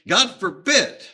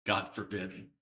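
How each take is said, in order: First: "God forbid" loud and high; loud, emphatic "God forbid"; emphatic exclamation. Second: Said in the usual way. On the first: Shown as a demonstration. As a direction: punch out "God forbid" as a forceful refusal. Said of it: "it is emphatic".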